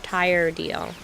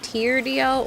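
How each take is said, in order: First: The first syllable rhymes with 'fire'. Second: The first syllable rhymes with 'ear'. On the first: The speaker calls it wrong. "or tire D L?" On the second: The speaker calls it right. "Is it tier D L or"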